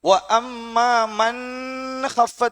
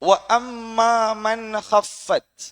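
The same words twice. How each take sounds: First: The n is drawn out with a nasal hum. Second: The n is short and clear, not drawn out. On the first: The speaker calls it wrong. "என்ற ஒரு ஓதுனா பிழை, அவடத்த ராகம் எடுக்கக்கூடாது" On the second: The speaker calls it right. "மன்ன உச்சரிக்கணும், ஹஃபத்தை உச்சரிக்கணும், நீட்டக்கூடாது"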